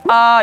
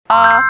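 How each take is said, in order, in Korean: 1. 음높이가 높게 그대로 유지돼요. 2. 음높이가 내려갔다가 다시 올라가요. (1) "일성은 아 이러니까" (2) "V자는 삼성입니다"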